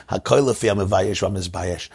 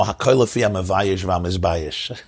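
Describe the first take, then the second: First: Said in the usual way. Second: Laughing. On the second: Real, not acted. Teacher quoting the saying while still laughing at the joke. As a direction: quote chuckled out mid-laugh.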